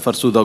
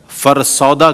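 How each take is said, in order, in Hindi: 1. दूसरा स्वर छोटा 'u' ध्वनि है। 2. दूसरा स्वर लंबा 'au' ध्वनि है। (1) "फ़रसुदा को" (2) "जैसा फ़रसौदा कहा आपने"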